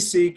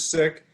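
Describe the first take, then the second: First: The word has a long vowel, like 'seek'. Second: The word has a short vowel, like 'sick'. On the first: "If you say seek, it, it's acceptable" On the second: "the accurate pronunciation is sick"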